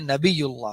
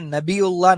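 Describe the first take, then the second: First: A y glide comes before the ending. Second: A glottal stop comes before the ending. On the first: The speaker calls it right. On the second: The speaker calls it wrong.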